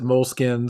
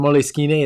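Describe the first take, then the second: First: The word is said the American way. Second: The word is said the Italian way. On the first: "Americans pronounce it moleskin" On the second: "Moleskine is how you pronounce it in Italian"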